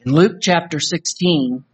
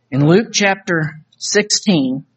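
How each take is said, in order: First: Said in the usual way. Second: Slow, weighty In Luke chapter sixteen, each word set apart; slow emphatic repeat. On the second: Shown as a demonstration. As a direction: repeat the reference slowly for emphasis.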